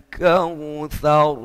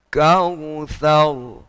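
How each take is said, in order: The two takes are said the same way.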